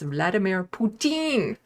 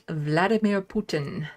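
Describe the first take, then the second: First: The surname is said the French way. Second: The surname is said the usual English way.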